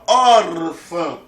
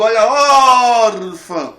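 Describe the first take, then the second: First: "órfã" with a firm, loud ÓR; sílaba tônica marcada. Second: Very loud commentator cry, ÓR of "órfã" held long; Galvão Bueno. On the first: Shown as a demonstration. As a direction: press on the first syllable of "órfã". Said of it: "eu digo, olha". ("órfã" com o ÓR forte) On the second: Acted. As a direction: bellow it like a sports call, stretching the stressed syllable. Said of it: "lembrar da narração do Galvão Bueno". (narração esportiva, "órfã" com o ÓR esticado)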